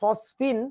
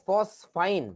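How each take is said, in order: First: The last syllable is said with an 'ee' vowel. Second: The last syllable is said with an 'eye' vowel. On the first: "অনেকে বলে ফসফিন" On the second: "অনেকে বলে ফসফাইন"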